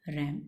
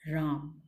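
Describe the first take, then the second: First: रैम said with a short flat 'a' like English ram; रैम, English verb ram with the 'ae' vowel; verb pronunciation ram. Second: राम said with a long open 'aa' as in the name Ram; राम, the Hindi name with a long 'aa'; name pronunciation Raam. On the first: (रैम को अंग्रेज़ी 'ऐ' स्वर के साथ बोलें) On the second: (राम को लंबे 'आ' स्वर के साथ बोलें) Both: Shown as a demonstration. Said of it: "इसकी प्रोनाउंसिएशन भी चेंज हो जाती है".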